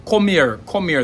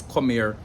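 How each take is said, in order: First: "Come here" with a hard, punched K, higher and louder; strong rural K. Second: Said in the usual way. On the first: Shown as a demonstration. Teacher showing the rural Jamaican "Come here", hard K. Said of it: "the K in rural Jamaica would sound stronger". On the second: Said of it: "the average Jamaican says".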